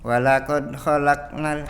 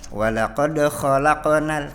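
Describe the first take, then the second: First: The q sound is soft and muffled. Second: The q sound is crisp with a clear bounce. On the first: The speaker calls it wrong. "tidak seperti dibaca qalqalah" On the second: The speaker calls it right. "Harusnya dibaca jelas"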